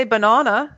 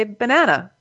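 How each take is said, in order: First: BANANA with a broad "ah" middle; British-style banana. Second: BANANA with a flat A as in "cat"; American banana. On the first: Retold or imitated. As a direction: say "banana" as ba-NAH-na. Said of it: "You guys say banana". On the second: Shown as a demonstration. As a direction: say "banana" as ba-NAN-uh. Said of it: "we say banana".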